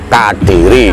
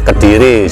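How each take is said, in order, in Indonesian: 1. Vokal pertama adalah bunyi 'a' terbuka. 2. Vokal pertama adalah bunyi 'e' lemah. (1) "Yang benar itu adalah Kadiri" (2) "karena itu menjadi omongan umum, jadilah Kediri"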